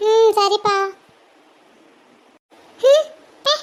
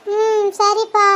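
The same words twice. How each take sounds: First: High, mocking childish voice; a kid pulling a face at her mother; sulky child. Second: Put-on slow, drawn-out childish agreement; a sulky little girl giving in; grudging okay. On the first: Child sulks, sticks tongue out.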